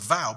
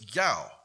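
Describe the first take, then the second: First: The word begins with a 'v' sound. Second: The word begins with a 'y' sound. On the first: The speaker calls it wrong. "You think it says vow" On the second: The speaker calls it right. "but it's yow"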